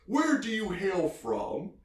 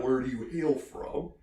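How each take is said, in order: First: High, slow, hammed-up questioning; pitched-up, drawn-out mock interrogation; imitated father. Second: Said in the usual way. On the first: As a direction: ask it grandly as the put-on dad. Father questions the Irishman, retold.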